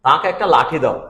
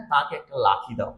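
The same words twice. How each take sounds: First: লাঠি said with a retroflex ঠ, tongue curled back; লাঠি with retroflex ঠ, meaning stick; correct retroflex ṭh. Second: লাঠি said as লাথি with a dental ত-like th; tongue forward, so লাঠি comes out লাথি, kick; লাঠি mispronounced with a dental th; dental th slip. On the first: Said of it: "এখন তুমি কাউকে বললা যে". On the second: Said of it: "ঠ উচ্চারণ না হয়ে ত উচ্চারণ হয়েছে". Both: Shown as a demonstration.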